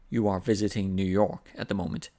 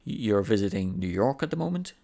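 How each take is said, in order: First: "You are visiting New York at the moment" falling at the end; statement intonation. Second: "You're visiting New York at the moment" rising at the end into a question; intonation going up. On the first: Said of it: "That's a statement". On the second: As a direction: turn the statement into a question, climbing on "at the moment". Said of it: "with intonation going up". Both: Shown as a demonstration.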